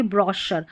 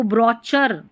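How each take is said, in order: First: ब्रोशर with a sh sound in the middle; correct pronunciation. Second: ब्रोचर with a ch sound in the middle; wrong pronunciation. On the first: Teacher corrects the word for learners, ब्रोशर with sh. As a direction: say ब्रोशर as "bro-sher". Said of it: "इसको बोलेंगे ब्रोशर". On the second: Teacher shows learners the mistake, ब्रोचर with ch. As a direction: misread brochure as "bro-cher", ब्रोचर. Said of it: "ब्रोचर नहीं बोलेंगे". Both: Shown as a demonstration.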